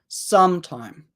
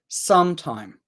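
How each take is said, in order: First: The stress is on the first syllable. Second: The same.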